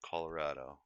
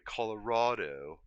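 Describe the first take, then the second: First: Colorado is said the local hometown way. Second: Colorado is said the common, widespread way. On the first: This is how locals who grew up there say it. "That's just how we say it, how we grew up there" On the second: This is how most outsiders say it. "most people say Colorado"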